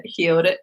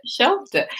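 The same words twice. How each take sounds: First: Said in the usual way. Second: "shelved it" said much higher, with a falling tune; jumped up high. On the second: Shown as a demonstration. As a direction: make "shelved" pop up high. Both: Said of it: "shelved it, healed it, shelved it".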